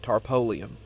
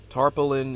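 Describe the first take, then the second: First: The word ends with a 'lium' sound. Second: The word ends with a 'lin' sound. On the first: This is the form the family always used. "That's just what we've always called it" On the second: This is the form used now. "tarpaulin is what it is now"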